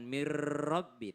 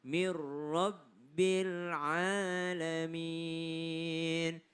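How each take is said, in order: First: MIR RABBI with the r held too long; wrongly lengthened r. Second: MIR RABBIL chanted, r not lingered on; slow recitation of MIR RABBIL, no overlong r; correct short merge. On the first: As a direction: linger on the r in MIR RABBI, as a mistake. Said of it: "tidak dilamain di situ. Bukan". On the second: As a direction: pass straight through the r of MIR RABBIL, then hold the vowels. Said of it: "maka dia tidak dilamain di situ". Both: Shown as a demonstration.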